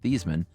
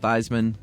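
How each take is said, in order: First: The name does not rhyme with Heisman. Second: The name rhymes with Heisman. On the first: This is the family's own pronunciation. "his dad was very firm that their last name was pronounced Theismann" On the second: It was changed to match the trophy's name. "to rhyme"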